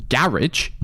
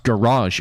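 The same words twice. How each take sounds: First: Garage said as GARR-idge, stress first; British garage. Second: Garage said as ga-RAHZH, stress on the end, mock posh. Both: Shown as a demonstration. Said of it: "the proper British way to say garage".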